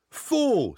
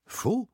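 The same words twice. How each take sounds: First: High, falling cry of rage; furious cry. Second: High, rising question of disbelief; stunned. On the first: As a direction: burst out with it angrily. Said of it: "S'écria-t-il rageusement". (cri rageur) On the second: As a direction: echo it in astonishment. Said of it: "Je le regardai abasourdi". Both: Acted.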